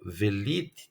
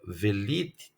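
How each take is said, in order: First: A short vowel is sounded between v and l. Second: A short vowel is sounded between v and l.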